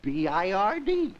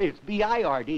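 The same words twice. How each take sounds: First: Drawn-out B I R D with a cheeky upward lilt; sly switch. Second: B I R D spelled out firmly at normal pace; father setting B I R D straight; firm correction. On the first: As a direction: spell B I R D slowly and innocently, pitch rising. Boy switches spelling to win bet. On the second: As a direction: correct the child, giving each letter of B I R D. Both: Retold or imitated.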